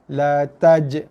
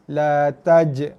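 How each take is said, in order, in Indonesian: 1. Huruf j terakhir berakhir dengan lantunan yang tegas. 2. Huruf j terakhir berakhir dengan lantunan yang tegas.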